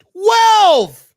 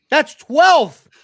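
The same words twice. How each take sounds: First: Twelve shouted high and loud in disbelief; outraged outburst at the number; shocked shout. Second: Said in the usual way. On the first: Real, not acted. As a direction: yell "Twelve!" as if it can't be true. Repeats the total in disbelief.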